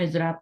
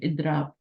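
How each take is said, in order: First: The middle consonant is a z sound. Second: The middle consonant is a d sound. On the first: This is the Urdu way of saying it. "Urdu में इजराब पढ़ा जाएगा" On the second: This is the Arabic way of saying it. "लेकिन अरबी में दुआत पढ़ा जाएगा"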